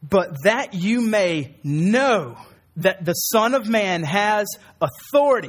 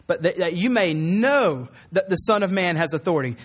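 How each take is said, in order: First: Slow, weighty reading of the verse; slow scripture reading. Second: Said in the usual way. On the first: Shown as a demonstration. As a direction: lay each word down slowly and solemnly. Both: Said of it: "This is what he says".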